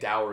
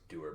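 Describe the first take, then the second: First: The word rhymes with 'sour'. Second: The word rhymes with 'doer'. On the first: "it sounds like sour" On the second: "dour is actually pronounced doer"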